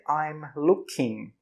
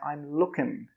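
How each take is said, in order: First: Each word is said slowly and fully. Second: The words are run together quickly. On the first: The speaker calls it wrong. "We don't say I'm looking" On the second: The speaker calls it right. "we say I'm looking"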